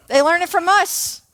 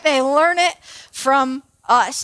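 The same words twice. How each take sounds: First: Said in the usual way. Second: Slow, drawn-out delivery; slow emphatic repeat. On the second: Real, not acted. Speaker driving home that kids copy adults, slow and deliberate. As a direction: space the words out and let the point land.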